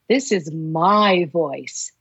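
The word 'my' carries the stress.

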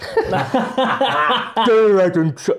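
It is read in a put-on Essex-style accent. It imitates how another person speaks. "Should I do an impression of him? How does he speak? Kind of Essexy"

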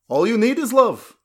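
It is said in a put-on character accent.

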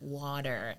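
It is said with an American accent. The speaker calls it right. "I have to then put on an American accent and say"

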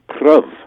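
The vowel is short, like in 'love'. It rhymes with love. "in early modern English, ... it would have been prov"

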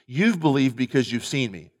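The voice falls at the end. Jesus is telling Thomas why he believed. The speaker calls it right. "as a statement"

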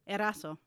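The name is said with a Spanish accent. The speaker calls it wrong. "Spanish version"

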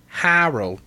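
It is said in an East Coast accent.

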